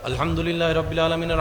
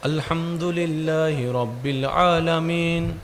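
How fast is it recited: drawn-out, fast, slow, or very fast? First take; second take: very fast; fast. First: It is recited very quickly. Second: It is recited somewhat faster. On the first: "এবার একদম ফাস্ট করে দেন তারাবি স্টাইলে" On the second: "এবার একটু স্পিড বাড়াই দেন"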